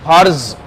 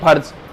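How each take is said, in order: First: The word is said with extra force. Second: The word is said plainly, without extra force. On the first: "तो उसे फिर जोर देके बोलना पड़ेगा आपको" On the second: "हम बोलते हैं फर्ज"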